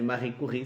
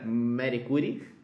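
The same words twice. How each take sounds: First: The name is said with French sounds. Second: The name is said with Brazilian Portuguese sounds. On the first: The speaker calls it right. "seria mais adequado" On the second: The speaker calls it wrong. "pronúncia brasileira"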